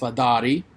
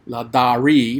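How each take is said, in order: First: The R sound is rolled only lightly. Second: The R sound is strongly emphasized. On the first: "kind of roll that R a little bit" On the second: "if I would emphasize that R sound"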